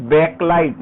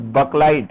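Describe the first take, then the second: First: "backlight" said clearly with a full "back"; teacher modelling "backlight" with an open first vowel; correct pronunciation. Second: "backlight" with the first vowel reduced to "buk"; the faulty "backlight", first syllable like "buh"; mispronunciation. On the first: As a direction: pronounce "backlight" the right way, emphatically. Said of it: "it's pronounced as backlight". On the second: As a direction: say "backlight" wrongly, as "buk-light". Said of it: "not backlight". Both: Shown as a demonstration.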